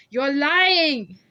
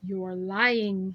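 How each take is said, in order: First: Much louder, higher raging yell; furious shout. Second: Flat menacing charge; accusing. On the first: Scarred man screams that she is lying, furious. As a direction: explode at her. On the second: Scarred man accuses her of lying, menacing. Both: A narrator's reading.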